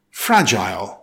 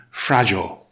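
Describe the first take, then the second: First: "fragile" said FRAJ-ile, rhyming with aisle; full long I in the second syllable of "fragile"; British-style "fragile", ending like "mile"; British pronunciation. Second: "fragile" said the American way, FRAJ-ul; American "fragile", low and falling, second vowel swallowed; American pronunciation. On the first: British take before American one. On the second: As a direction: reduce the end of "fragile" to a short -jul. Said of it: "American pronunciation". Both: Shown as a demonstration.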